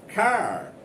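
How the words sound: It is said with an American English accent. "American people say car"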